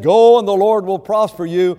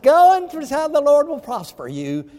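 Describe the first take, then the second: First: It is said in a sincere, straightforward tone. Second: It is said in a mocking, sarcastic tone. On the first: The promise of success is meant seriously. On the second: The promise of success is not meant seriously.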